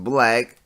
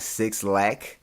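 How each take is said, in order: First: The name sounds like the word black. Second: The name starts with the word six. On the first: The speaker calls it right. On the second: The speaker calls it wrong. "I thought you pronounced it like Six Lack"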